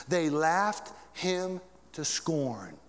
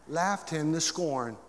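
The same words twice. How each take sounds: First: Laughed him to scorn stretched out very slowly; slow emphatic repeat. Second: Said in the usual way. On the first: Shown as a demonstration. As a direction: weigh every word of laughed him to scorn. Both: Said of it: "repeated slower".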